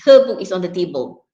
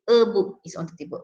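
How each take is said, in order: First: The h of her is clearly pronounced. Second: The h of her is dropped. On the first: The speaker calls it right. "you say her book is in uh" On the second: The speaker calls it wrong. "You don't say"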